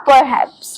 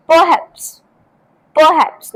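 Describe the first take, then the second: First: "perhaps" said as per-HAPS; full "per" at the start of "perhaps"; wrong, sounded r. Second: "perhaps" said as puh-HAPS; r-less first syllable in "perhaps"; careful puh-HAPS for "perhaps"; silent r. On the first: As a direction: pronounce the r in "perhaps". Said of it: "not perhaps". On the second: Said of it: "आर letter है वो silent है". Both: Shown as a demonstration.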